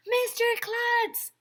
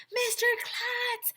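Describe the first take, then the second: First: Much higher, louder repeated call, slow. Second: Long, much higher call, slow. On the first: Kids call Mister Klutz a second time, louder high call. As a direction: call again, more urgent. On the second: Kids call up to Mister Klutz, long high call. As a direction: call up to him from below. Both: Acted. Kids calling to parachuting principal.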